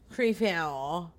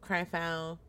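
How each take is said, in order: First: "Cryfo" with first syllable like "cree"; alternative pronunciation. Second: "Cryfo" with first syllable like "cry"; pronunciation attempt. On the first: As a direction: say "Cryfo" as "kree-fell", ending on a rise. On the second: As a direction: say "Cryfo" with an eye vowel up front. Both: Shown as a demonstration. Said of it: "I think it's Cryf".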